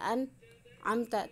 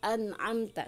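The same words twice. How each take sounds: First: The word is broken by a pause in the middle. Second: The word is said smoothly without any break. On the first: The speaker calls it wrong. "tidak diputus" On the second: The speaker calls it right. "satu kesatuan"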